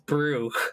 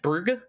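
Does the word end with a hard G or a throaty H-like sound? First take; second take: H-like sound; hard G. First: The word ends with a throaty H-like sound. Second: The word ends with a hard G sound. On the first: The speaker calls it right. "with like an H rather than a G" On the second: The speaker calls it wrong. "like Brug, and I got told that was wrong"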